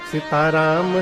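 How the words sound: It is said with loving devotion.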